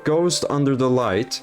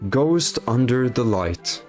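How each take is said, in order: First: It is read in a plain, normal voice. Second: It is read in a put-on dramatic poem voice.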